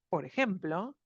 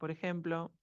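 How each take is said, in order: First: The pitch rises through the phrase. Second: The pitch stays flat through the phrase. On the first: The speaker calls it right. "que hice un tono ascendente" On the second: The speaker calls it wrong. "siempre hablo en el mismo tono"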